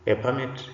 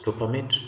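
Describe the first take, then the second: First: Permit stressed on the first syllable; noun stress on permit. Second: Permit stressed on the second syllable; verb stress on permit. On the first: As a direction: punch the PER of permit. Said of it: "stressed to form a noun". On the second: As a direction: lean on the MIT of permit. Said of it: "stressed to form a verb". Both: Shown as a demonstration.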